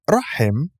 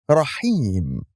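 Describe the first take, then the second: First: The second-syllable vowel is short. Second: The second-syllable vowel is lengthened. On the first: The speaker calls it wrong. "It's not rahim" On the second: The speaker calls it right. "attempting the kesra"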